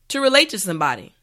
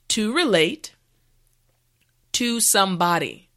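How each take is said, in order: First: The phrase is said at normal speed. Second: The phrase is said slowly and carefully. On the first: "now let's say it at a normal pace" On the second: "repeat after me"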